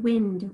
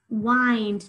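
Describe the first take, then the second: First: The vowel is a short I sound. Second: The vowel is a long I sound. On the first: "the word wind with a short I" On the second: "the ind pattern"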